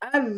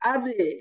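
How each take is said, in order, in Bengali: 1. চূড়ান্ত ব্যঞ্জনধ্বনিটি আলতোভাবে থেমে যায়, কোনো প্রতিধ্বনি থাকে না। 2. চূড়ান্ত ব্যঞ্জনধ্বনিটি একটি ছোট স্বরধ্বনির প্রতিধ্বনি দিয়ে ছাড়া পায়। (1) "আজ নরম, দেখেন এখানে কলকলা করা যাবে না" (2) "আজে এরকম বলতে পারবেন না"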